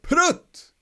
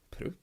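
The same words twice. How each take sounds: First: It is called out sharply as an exclamation. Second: It is said in a puzzled, questioning way. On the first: An outburst of feeling. "The exclamation would be like prut" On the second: The speaker finds something strange. "say it in a questioning manner ... you would say it more like, prut"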